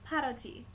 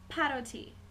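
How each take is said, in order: No difference in how they are said.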